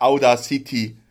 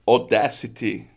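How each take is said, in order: First: Audacity read the German way, "au-da-SI-ti"; mispronounced Audacity. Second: Audacity said in English, "aw-DASS-i-tee"; English pronunciation, stress on the DASS of Audacity; correct English Audacity. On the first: Host showing listeners how it is not said, German-style Audacity. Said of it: "Was man Audacity ausspricht". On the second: Host correcting how the software is said, English Audacity. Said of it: "es heißt nicht Audacity". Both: Shown as a demonstration.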